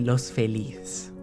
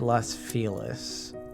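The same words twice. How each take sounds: First: The name is pronounced in a Spanish-style way. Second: The name is pronounced in an English-style way. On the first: Locals do not say it this way. "you don't say Los Feliz" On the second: This is how locals say it. "you say Los Feliz"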